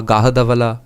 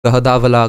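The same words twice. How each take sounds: First: "Gahadavala" with a long, open first "aa"; alternative pronunciation. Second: "Gahadavala" with a short, light first vowel; alternative pronunciation. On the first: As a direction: stretch the first vowel of "Gahadavala" to "Gaa". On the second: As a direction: try "Gahadavala" with an unstressed first syllable. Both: Shown as a demonstration. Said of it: "it can be many things".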